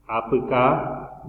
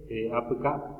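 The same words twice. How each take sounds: First: Slow, drawn-out "Apuca"; slow model word. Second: Said in the usual way. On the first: Shown as a demonstration. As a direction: stretch "Apuca" out. ("Apuca" alargado y lento)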